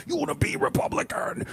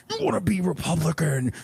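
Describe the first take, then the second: First: Unvoiced, high whisper scream. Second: Said in the usual way. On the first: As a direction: scream it in a whisper so the hotel can't hear. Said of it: "The whisper yelling makes this".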